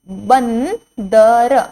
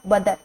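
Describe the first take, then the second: First: An n sound follows the first consonant. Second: There is no n sound after the first consonant. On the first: The speaker calls it right. "जब मैं बंदर बोल रही हूं तो ब के पीछे हमें न सुनाई देता है" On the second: The speaker calls it wrong. "बदर शब्द गलत है"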